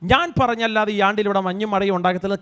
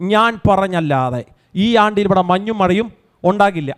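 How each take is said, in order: First: It is said in a meek, deferential tone. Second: It is said in a firm, commanding tone. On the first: The message is only relayed on another's behalf. The speaker calls it wrong. "അങ്ങനൊന്നുമല്ല, അതിൻ്റെ tone അങ്ങനല്ല" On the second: The speaker holds authority over what will happen. The speaker calls it right. "പ്രാർത്ഥിക്കുന്നവൻ്റെ നാവിനകത്ത് ദൈവം കൊടുക്കുന്നൊരു അധികാരമാണ് അത്"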